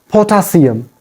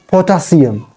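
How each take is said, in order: Both takes have the same delivery.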